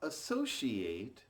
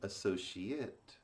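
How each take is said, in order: First: The final syllable sounds like 'ate'. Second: The final syllable sounds like 'it'. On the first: It is used as a verb. "associate as a verb" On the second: It is used as a noun or adjective. "which is the adjective or noun"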